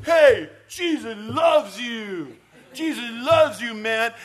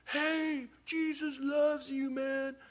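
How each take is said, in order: First: Put-on loud, high, drawn-out drunken yell; drunk friend shouting. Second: Put-on high, slow drunken call from a distance; drunk man heard far off. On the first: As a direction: holler it drunkenly at everyone on the street. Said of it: "it's my drunk friend". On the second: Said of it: "we hear this off in the distance".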